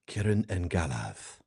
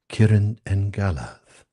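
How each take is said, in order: First: It is said in a normal speaking voice. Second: It is said in a put-on, theatrical voice.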